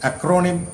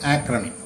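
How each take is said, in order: First: The middle syllable has a full 'o' vowel. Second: The middle syllable has a weak, reduced vowel. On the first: The speaker calls it wrong. "അക്രോണിം എന്ന് വായിക്കരുത്" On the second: The speaker calls it right.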